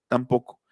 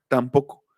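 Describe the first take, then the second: Both takes have the same delivery.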